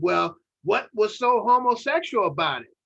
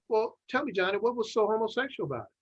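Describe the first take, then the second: First: It is asked in a tone with attitude. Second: It is asked in an innocent, neutral tone.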